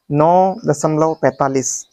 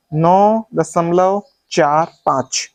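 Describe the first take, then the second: First: Slow, पैंतालीस as one whole number; wrong reading demo. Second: Slow, चार, पाँच as separate digits; correct reading demo. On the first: Teacher testing students with a mistake, demonstrated wrong reading. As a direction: read पैंतालीस slowly as a single number. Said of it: "गलत है?". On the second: Teacher asking students to check, slow digit-by-digit reading. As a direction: set चार and पाँच apart slowly. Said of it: "अब मैं सही पढ़ूंगा". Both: Shown as a demonstration.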